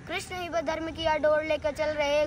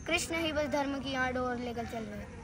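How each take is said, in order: First: Steady rhythmic declamation; full-voiced recital. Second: Soft verse lead-in; hushed recital. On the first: Full-voiced repeat of verse. (पूरे स्वर में कविता पाठ) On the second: Acted. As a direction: recite it quietly, held back. Soft first take of verse. (धीमे स्वर में कविता)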